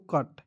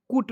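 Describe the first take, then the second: First: कट with a short uh vowel; कट, rhyming with "but"; correct pronunciation. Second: कुट with a short oo vowel; wrong pronunciation. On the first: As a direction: say कट, no oo sound in it. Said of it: "इसे पढ़ते हैं दोस्तों". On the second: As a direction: say कुट, sounding the U as oo. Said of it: "कुट नहीं पढ़ते". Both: Shown as a demonstration.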